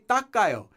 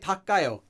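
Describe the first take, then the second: First: The consonant is said doubled and tense. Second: The consonant is said plain, not doubled. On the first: "They say 닦아요, even though there is no double tigat in there" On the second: "You don't hear people say"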